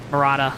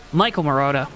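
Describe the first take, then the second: First: Marotta said as muh-RAH-tuh with an open ah; corrected name. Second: Marotta said as muh-ROH-tuh with a long O; mispronounced name. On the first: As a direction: fix Marotta with an ah in the middle. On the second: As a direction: say Marotta with an oh sound in the middle. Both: Real, not acted. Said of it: "I said it wrong".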